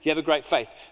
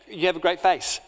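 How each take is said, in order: First: The last word ends with a th sound. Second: The last word ends with an s sound. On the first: The listener is praised for strong belief. "No, he doesn't have a lisp" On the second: The listener is praised for a good-looking face. "So if God has a lisp, he's saying"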